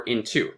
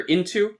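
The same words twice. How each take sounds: First: "into" with the weight on TO; "into", weak then strong; stress on second syllable. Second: "into" with the weight on IN; "into", strong then weak; stress on first syllable. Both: Shown as a demonstration. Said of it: "between how it's stressed".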